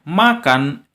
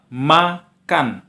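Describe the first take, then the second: First: The word is said smoothly in one piece. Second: The word is split with pauses between syllables. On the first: It is shown as a whole word. "Makan inilah yang disebut dengan kata" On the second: It is shown as separate syllables. "Inilah yang disebut dengan suku kata"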